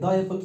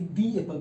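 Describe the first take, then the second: First: 'The' is said with a short, weak vowel. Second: 'The' is said with a long 'ee' vowel. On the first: The speaker calls it wrong. "द Apple पढ़ेंगे" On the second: The speaker calls it right. "दी पढ़ेंगे"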